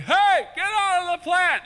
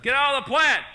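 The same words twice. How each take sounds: First: High, slow shouted scolding; yelling at the cat. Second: High loud shout; yelling at the cat. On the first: Owner yelling at cat in the plant, high shout. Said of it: "It was like". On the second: Owner scolding drugged cat in plant, high shout. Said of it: "That's it". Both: Retold or imitated.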